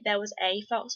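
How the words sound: The word 'a' is pronounced fully and clearly. "in America you'd say"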